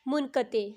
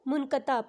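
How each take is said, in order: First: The word ends in 'e', as in munqate. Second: The word ends in 'a', as in munqata. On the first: The speaker calls it right. "उसकी अदायगी ऐसी होगी" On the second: The speaker calls it wrong. "उसको मुनक़ता पढ़ेंगे"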